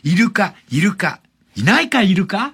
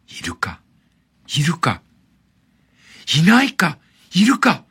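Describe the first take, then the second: First: It is read brightly and cheerfully. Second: It is read quietly and slowly. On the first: It is wordplay repeating the name of the animal, dolphin. "明るく読めば" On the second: It tells of an event, like a child gazing into an aquarium tank. "静かにゆっくり読むと"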